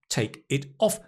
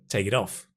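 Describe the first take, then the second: First: Each word is said separately without linking. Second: The words link with a soft, flapped t sound. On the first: "you may have said, take it off. And that's fine" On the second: "Or if you're American"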